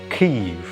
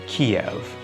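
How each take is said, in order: First: It is said the Ukrainian way. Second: It is said the Russian way. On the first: The speaker backs the country's own identity. The speaker calls it right. "the correct pronunciation" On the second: It follows the Soviet-era usage. The speaker calls it wrong. "instead of Kiev"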